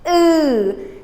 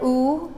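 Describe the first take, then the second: First: The lips stay unrounded, closed at the back. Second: The lips are pushed forward and rounded. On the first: The speaker calls it right. "it's ooh" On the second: The speaker calls it wrong. "My lips are not forward like ooh"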